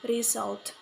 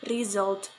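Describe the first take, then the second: First: The middle consonant is an s sound. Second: The middle consonant is a z sound. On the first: The speaker calls it wrong. "This is wrong" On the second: The speaker calls it right. "The correct one is result"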